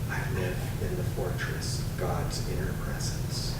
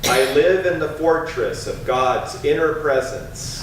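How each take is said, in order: First: It is spoken very softly, almost whispered. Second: It is spoken in a strong, loud voice. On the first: "And now softer, almost a whisper" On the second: "Once again with a strong voice"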